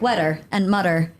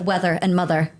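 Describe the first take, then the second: First: The middle sound of mother is a plain t. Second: The middle sound of mother is a th. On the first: The speaker calls it wrong. "I would say like weather and mutter" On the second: The speaker calls it right. "instead of weather and mother"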